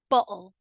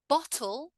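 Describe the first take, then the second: First: "bottle" as "bo'ul"; throat catch in place of T in "bottle"; glottal T. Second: "Bottle" with a crisp T; careful "bot-tul"; full T. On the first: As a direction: cut the T in "bottle". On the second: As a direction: sound the T fully in "Bottle". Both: Shown as a demonstration. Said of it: "in the two different ways".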